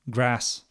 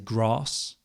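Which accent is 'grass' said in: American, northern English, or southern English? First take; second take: northern English; southern English. First: It is said in a northern English accent. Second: It is said in a southern English accent. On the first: "My wife is from the north of England. She says grass" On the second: "I say grass"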